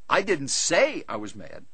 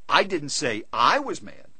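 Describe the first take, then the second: First: The stress is on the word say. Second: The stress is on the second I. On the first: It was expressed another way, not spoken. "I wrote him about it" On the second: A different person was the one who was mad. "I said he was mad"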